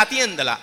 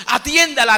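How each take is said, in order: First: Said in the usual way. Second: Urgent plea. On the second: Retold or imitated. Parishioner urges priest to help.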